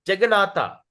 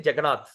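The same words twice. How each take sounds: First: Jagannatha with the closing A sounded; full final A. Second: Jagannath ending on TH, no A; swallowed final A. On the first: Shown as a demonstration. Teacher gives the full name for contrast, final A kept. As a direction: keep the THA at the end of Jagannatha. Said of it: "They like to say Jagannath". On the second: Retold or imitated. Teacher imitates North Indians, Jagannath without its last vowel. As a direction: cut Jagannatha short to Jagannath. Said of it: "They like to say".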